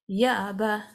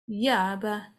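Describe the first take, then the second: No difference in how they are said.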